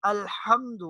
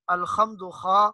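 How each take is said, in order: First: الحمد with a soft ہا, like a cool sigh; الحمد, the h breathed out gently; الحمد with light ہا; soft breathy h. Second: الحمد said with a heavy throaty خا; الحمد with a rough خا instead of ہا; mock mistake, throaty خا; wrong heavy kh. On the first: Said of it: "جس طرح ٹھنڈی سانس لی جاتی ہے". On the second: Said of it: "اس کو الحمد نہیں کہنا". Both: Shown as a demonstration.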